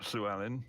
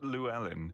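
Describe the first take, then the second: First: The name is pronounced with Welsh sounds. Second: The name is pronounced with English sounds. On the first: This reflects the speaker's Welsh background. "I automatically pronounce it ... because of the Welshness" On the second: This is how most people say it. "I'm used to hearing people say"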